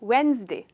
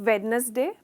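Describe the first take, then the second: First: It is said with only two syllables. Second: It is said with three full syllables. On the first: The speaker calls it right. "Correct pronunciation है वेंसडे" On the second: The speaker calls it wrong. "हमने generally कहते हैं हम वेडनेसडे"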